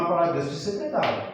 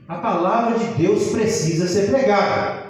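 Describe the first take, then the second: First: Said in the usual way. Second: Slow, deliberate emphasis on "A palavra de Deus precisa ser pregada"; emphatic repetition. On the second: Real, not acted. Preacher repeats the central point to the congregation, slow and emphatic. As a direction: drive home "precisa ser pregada", slowly and firmly.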